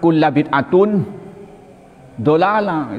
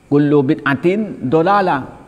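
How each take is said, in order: First: The first word ends in 'a', the second in 'un'. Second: The first word ends in 'u', the second in 'in'. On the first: The reader misunderstands the grammar. The speaker calls it wrong. "lalu dibacanya kulla bid'atun dolalah. Itu kan sudah semeraut" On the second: The reader understands the grammar. The speaker calls it right. "kullu itu mudhaf, bid'atin mudhaf ilaih"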